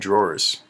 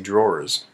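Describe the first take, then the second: First: The word ends with a hissing s sound. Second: The word ends with a buzzing z sound. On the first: The speaker calls it wrong. "so it should be more z" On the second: The speaker calls it right. "It's got that z sound"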